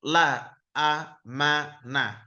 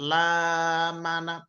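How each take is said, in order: First: The alif is read as a separate a. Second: The alif lengthens the vowel after the l. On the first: The speaker calls it right. "Tapi la amana" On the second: The speaker calls it wrong. "bukan la mana"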